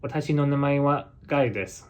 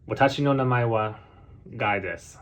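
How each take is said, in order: First: Japanese pitch accent, held higher then falling at the end; more Japanese accent. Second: Quick Japanese with American intonation, dropping on "Guy desu"; American-accented Japanese. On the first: Learner contrasting his American version for viewers, more Japanese intonation. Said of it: "in a more Japanese way". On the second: Learner demonstrating how an American introduces himself, American-accented Japanese. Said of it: "in American way". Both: Shown as a demonstration.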